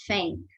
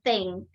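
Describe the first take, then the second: First: The word begins with an f sound. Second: The word begins with a th sound. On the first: "men would pronounce it as fang" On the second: "instead of saying thing"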